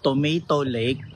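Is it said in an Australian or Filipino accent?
Filipino. It is said in the speaker's Filipino accent.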